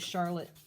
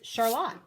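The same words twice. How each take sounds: First: It uses the common, standard pronunciation. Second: It uses the speaker's local, regional pronunciation. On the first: This is how most people say the name. "I didn't know it was Charlotte" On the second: This is how the speaker's hometown said the name. "we pronounced it"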